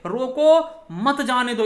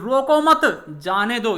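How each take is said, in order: First: There is a short pause after 'roko'. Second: There is a short pause after 'mat'. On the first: Stop the person; do not let them go. "ये यहां पर हमने अल्प विराम लगा दिया" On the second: Let the person go; do not stop them. "अल्प विराम हमने मत के सामने लगा दिया"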